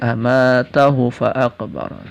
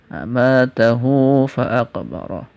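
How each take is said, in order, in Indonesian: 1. Vokal setelah h itu pendek. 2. Vokal setelah h itu panjang. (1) "Tidak boleh dibaca pendek" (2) "Tapi harus dengan silah"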